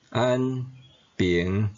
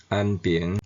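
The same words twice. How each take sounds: First: 安 and 平 said apart, each in its base tone; citation tones. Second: 安平 linked, with 安 changed to seventh tone; sandhi tone. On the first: Teacher drilling the class on the base tones of 安平. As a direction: read 安 then 平 one at a time, in citation tone. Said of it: "本调音". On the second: Teacher drilling the class on the sandhi form of 安平. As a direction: say 安平 smoothly, with 安 in its sandhi tone. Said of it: "变调音". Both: Shown as a demonstration.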